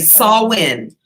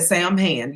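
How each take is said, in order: First: It is said like 'sow-in'. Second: It is said like 'sam hand'. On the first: The speaker calls it right. "It's pronounced Sawin" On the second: The speaker calls it wrong. "I said Sam hand"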